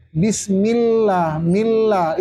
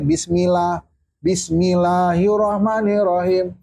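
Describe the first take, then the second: First: BISMILLAH with the L held, mil-lah; clear doubled L. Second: "bismillah" run through with a single short L; wrong take of BISMILLAH, L not doubled; missing tasdid. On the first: Teacher modelling bismillah for students, clear held L. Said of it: "itu harus jelas". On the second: Teacher showing students the forbidden reading, L left undoubled. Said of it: "Mana itu tasdid pada lam". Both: Shown as a demonstration.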